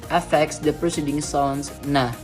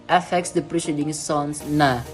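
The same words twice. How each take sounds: The two takes are said the same way.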